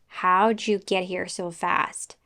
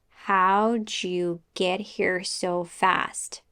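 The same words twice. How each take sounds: First: The sentence is said a little faster. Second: The sentence is said slowly. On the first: "now a little faster" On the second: "we'll start slowly"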